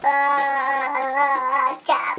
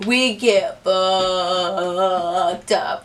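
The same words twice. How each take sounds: First: Long held, sung-like note; drawn-out drone. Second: Very slow, low, stretched word; drawn-out emphasis. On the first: Repeating how drunk they got, drawn-out drone. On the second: Three friends finish the bottle, drawn-out emphasis. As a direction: hold FUCKED in one long low drone. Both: Shown as a demonstration.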